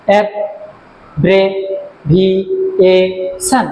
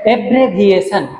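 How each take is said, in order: First: অ্যাব্রেভিয়েশন slowly split into five syllables. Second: Said in the usual way. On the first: Shown as a demonstration. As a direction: say অ্যাব্রেভিয়েশন with a short gap after each syllable. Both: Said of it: "পাঁচটা syllable আছে".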